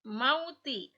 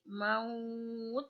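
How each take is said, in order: First: The word ends with a short i vowel. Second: The word ends on a bare t consonant. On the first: The reading continues into the next word. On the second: The reading stops at this word.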